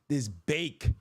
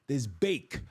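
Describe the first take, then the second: Both takes have the same delivery.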